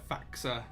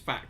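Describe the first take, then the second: First: It is said with an extra vowel at the end. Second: It is said as the single syllable fax. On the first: The speaker calls it right. "I think it's actually uh, faxa or something like that in, in German" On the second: The speaker calls it wrong. "I pronounce it as fax"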